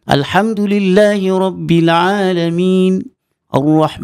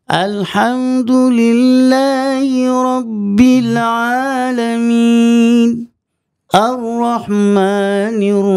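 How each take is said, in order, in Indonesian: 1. Kata-katanya dibacakan dengan tempo yang sedang dan merata. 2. Kata-katanya dibacakan sangat lambat dan dipanjang-panjangkan. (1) "kita ambil jalan yang sederhana" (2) "lambat Ustaz"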